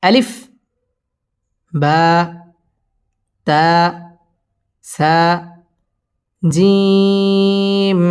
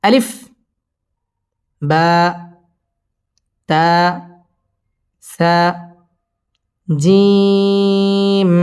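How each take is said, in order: Both takes have the same delivery.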